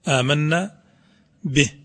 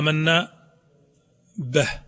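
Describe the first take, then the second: First: The vowel after b is a clear full 'i'. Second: The vowel after b leans toward an 'a' sound. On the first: The vowel is given its full proper value. The speaker calls it right. "تشبع الكسرة طبعا على قدر الكسرة تكون آمنا به" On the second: Local dialect habits are colouring the recitation. The speaker calls it wrong. "يقرأها آمنا به هكذا به، هذا تأثير إيش؟ تأثير اللهجة على النطق"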